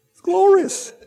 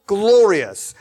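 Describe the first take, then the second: First: High breezy glorious; light gush. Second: Glorious said firm and loud, falling; weighty glorious. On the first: Mocking a casual crowd, a breezy glorious. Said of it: "No, glorious". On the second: Correcting the casual take, glorious with weight. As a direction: give glorious real weight. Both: Shown as a demonstration.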